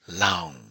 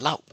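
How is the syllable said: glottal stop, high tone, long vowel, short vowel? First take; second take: long vowel; glottal stop. First: The vowel is drawn out long. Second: The syllable ends abruptly in a glottal stop. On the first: "long vowel" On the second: "glottal stop"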